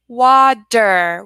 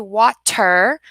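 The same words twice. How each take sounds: First: The middle consonant is a soft D sound. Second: The middle consonant is a crisp, hard T. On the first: The speaker calls it right. "we're going to say water" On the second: The speaker calls it wrong. "we're not going to say water"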